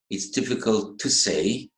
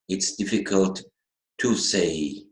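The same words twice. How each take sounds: First: The word 'to' is reduced and unstressed. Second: The word 'to' is said fully, with stress. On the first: The speaker calls it right. "the pronunciation should be like this" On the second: The speaker calls it wrong. "most of the students would say"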